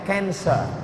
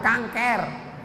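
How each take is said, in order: First: It is pronounced the English way, like 'cancer'. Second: It is pronounced the Indonesian way, like 'kanker'. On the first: "Tulisannya C A N C E R" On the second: "Orang kita payah bilang cancer"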